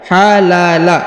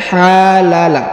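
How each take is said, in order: First: The vowels are kept short. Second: The vowels are drawn out long. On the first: The speaker calls it right. "dibaca satu satu harokat" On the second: The speaker calls it wrong. "Ini bukan halala"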